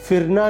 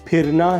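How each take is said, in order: First: The word begins with an f sound. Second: The word begins with an aspirated p sound. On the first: The speaker calls it wrong. "फिरना नहीं है" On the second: The speaker calls it right. "फिरना है"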